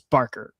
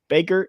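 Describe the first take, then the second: First: The first syllable has an r sound. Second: The first syllable has no r sound. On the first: The speaker calls it right. "It's Barker" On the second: The speaker calls it wrong. "I've been saying Baker"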